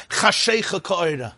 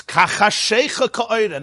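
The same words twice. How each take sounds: First: Said in the usual way. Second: Kachashecha drawn out slowly with its first syllable sounded clearly; slow, deliberate emphasis on Kachashecha; stress on Kachashecha. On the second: Shown as a demonstration. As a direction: give Kachashecha weight, prefix and all. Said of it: "That's why he adds".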